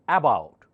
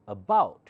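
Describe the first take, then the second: First: The first vowel is a full, stressed 'uh'. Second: The first vowel is a weak, unstressed schwa. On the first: The speaker calls it wrong. "you don't say about" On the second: The speaker calls it right. "You have to say about"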